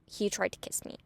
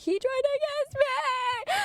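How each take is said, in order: First: Said in the usual way. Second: Very high, drawn-out squealed wail; hammed-up screamed complaint to friends; mock scream. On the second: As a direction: wail it in exaggerated horror, way up high. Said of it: "screaming, I was like".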